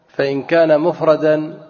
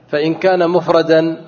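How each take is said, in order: Both takes have the same delivery.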